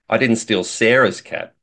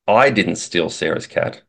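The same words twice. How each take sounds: First: The stress is on the word 'Sarah's'. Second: The stress is on the word 'I'. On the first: The speaker maybe stole someone else's cat. "implies that maybe I stole somebody else's cat" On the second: Someone other than the speaker stole it. "infers that it wasn't me, but somebody else stole it"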